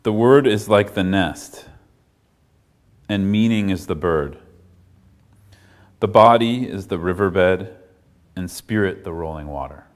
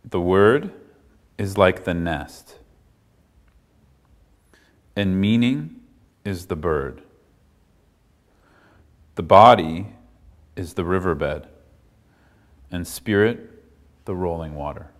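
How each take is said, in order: First: It is read at a normal pace. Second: It is read slowly.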